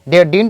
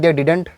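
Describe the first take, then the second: First: Didn't is squeezed into one syllable, like dint. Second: Didn't is said fully with two syllables. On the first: "आप इसको डिंट भी बोल सकते हैं" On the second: "आप कुछ भी इसको बोल सकते हैं"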